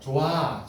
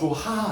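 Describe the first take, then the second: First: No h sound is heard before the last vowel. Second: An h sound is heard before the last vowel. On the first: The speaker calls it right. "히읗 없어져요" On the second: The speaker calls it wrong. "조하 아니죠?"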